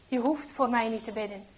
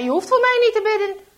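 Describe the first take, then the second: First: Said in the usual way. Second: Loud, high, fast rebuff; angry refusal. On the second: A narrator's reading. Traitor refuses dying Henk's prayer, angry shout. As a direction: fling the offer back, shouting.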